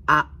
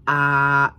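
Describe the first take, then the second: First: A cut short, very brief; short vowel A. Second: A held long and drawn out; long vowel A. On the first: Student showing a short Thai vowel, A kept brief. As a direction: say A as one quick, short vowel. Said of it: "et des voyelles qui sont courtes". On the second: Student showing a long Thai vowel, A drawn out. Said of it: "il y a des voyelles qui sont longues". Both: Shown as a demonstration.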